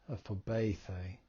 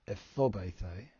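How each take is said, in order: First: The stress is on the third syllable. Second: The stress is on the second syllable. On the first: The speaker calls it right. "the accent is on the first of the two eaters" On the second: The speaker calls it wrong. "the emphasis would be on the omicron"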